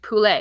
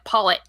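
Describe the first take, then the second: First: The word is said with a French pronunciation. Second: The word is said with an English pronunciation. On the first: The speaker calls it right. "like poulet" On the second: The speaker calls it wrong. "not pronouncing things the way that they're pronounced in French"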